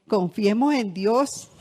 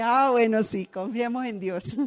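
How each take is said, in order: First: Slow, louder "confiemos en Dios" with each word weighed; daughter's firm advice. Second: Said in the usual way. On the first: Retold or imitated. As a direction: lean firmly on "confiemos en Dios". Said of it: "me dijo así". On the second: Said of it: "Y yo le dije".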